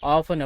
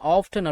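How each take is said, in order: First: The word is said without a t sound. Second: The word is said with a t sound. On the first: "ஆஃபன் அப்படி கூட உச்சரிச்சுக்கலாம்" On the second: "ஆஃப்டன் அப்படின்னு கூட உச்சரிச்சுக்கலாம்"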